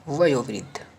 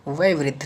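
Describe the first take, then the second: First: वयोवृद्ध as vayo-vriddh; corrected form. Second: वयोवृद्ध said as vay-vriddh; wrong form. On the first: Teacher corrects students, वयोवृद्ध with full o. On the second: Teacher shows the error, वयोवृद्ध without o. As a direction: drop the o in वयोवृद्ध. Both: Shown as a demonstration. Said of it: "नहीं".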